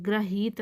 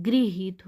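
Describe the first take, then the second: First: ग्रहित opening on "gra"; wrong gra syllable. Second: गृहित opening on "gri"; correct gri syllable. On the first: Teacher rejecting the error, ग्रहित with gra. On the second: Teacher stressing the right form, गृहित with gri. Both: Shown as a demonstration. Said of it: "ग्रहित नहीं होता".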